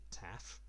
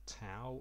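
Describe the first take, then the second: First: The word ends with an f sound. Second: The word ends with an ow vowel sound. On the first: This is how native Greek speakers say it. "as the Greeks actually pronounce it" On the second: This is the usual way people say it. "I'll keep calling it tau because everybody else does"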